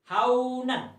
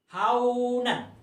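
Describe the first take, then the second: The two takes are said the same way.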